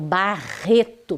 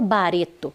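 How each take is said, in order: First: The R in the middle is strong and forceful. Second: The R in the middle is soft and light. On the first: The speaker calls it right. "eu falo barreto, bem forte" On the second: The speaker calls it wrong. "eu não falo bareto"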